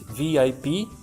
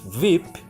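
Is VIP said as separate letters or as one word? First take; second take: letters; one word. First: Each letter is said separately. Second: The letters are said together as one word. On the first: It is treated as an initialism. "we have an initialism" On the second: It is treated as an acronym. "we have an acronym"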